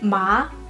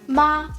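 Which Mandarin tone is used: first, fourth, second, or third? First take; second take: second; first. First: The pitch rises from mid to high. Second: The pitch stays high and level. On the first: "the second tone with ma" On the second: "I will use the first tone"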